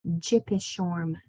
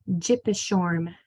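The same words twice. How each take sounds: Both takes have the same delivery.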